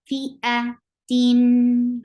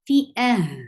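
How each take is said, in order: First: The word ends with a nasal -tin ending. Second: The word ends with a flowing breathy h. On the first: The reciter continues without stopping. "Give tawassut because you are pronouncing tanween" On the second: The reciter stops at this word. "when you stop at the the circle ta, you change into ha"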